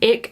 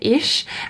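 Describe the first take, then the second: First: It has a regional dialect pronunciation. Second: It has the standard German pronunciation. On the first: The speaker calls it wrong. "I was saying ich ... apparently that is actually like a dialect" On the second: The speaker calls it right. "in Hochdeutsch, no, they say ish"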